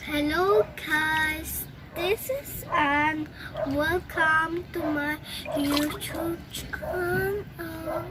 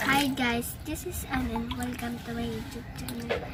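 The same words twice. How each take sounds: First: Slow, drawn-out soft greeting; six-month student demo. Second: Soft, low-energy channel greeting; beginner voice demo. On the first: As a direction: stretch every word out gently, as a trained-voice demo. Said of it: "ganito ang boses ko after six months ng voice lesson". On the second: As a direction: say it small and quiet, like an untrained voice. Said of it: "Ganito po ang boses ko, one day voice lesson". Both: Shown as a demonstration.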